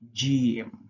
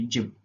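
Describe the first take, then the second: First: The sound is held and prolonged. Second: The sound is said short, not held. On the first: The speaker calls it right. "you're prolonging that sound" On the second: The speaker calls it wrong. "you won't just say gym"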